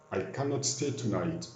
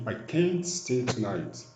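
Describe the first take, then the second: First: "cannot" said as one full, unshortened word; full form. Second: "can't" shortened to one syllable; contracted form. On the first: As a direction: give the full form "cannot", not the contraction. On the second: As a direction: use the contraction "can't" in place of "cannot". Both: Shown as a demonstration. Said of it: "Ou la forme contractée".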